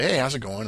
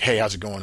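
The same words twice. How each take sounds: First: It is said in a warm, friendly way. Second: It is said in a cold, curt way.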